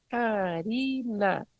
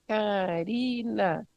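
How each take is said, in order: First: Slow syllable-by-syllable Karina; name clapped by syllable. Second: Slow, stamped syllables of Karina; name stamped by syllable. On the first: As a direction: clap out each syllable of "Karina" slowly. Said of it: "vou, meu nome". ("Karina" falado bem devagar, sílaba por sílaba) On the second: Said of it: "Vou bater o pé". ("Karina" bem devagar, batendo cada sílaba) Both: Shown as a demonstration.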